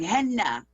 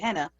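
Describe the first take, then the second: First: The middle n sound is held long, doubled. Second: The middle n sound is short and single. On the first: The speaker calls it right. "she was like, henna ... Two N's in there" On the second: The speaker calls it wrong. "I heard I was saying it right. I said henna"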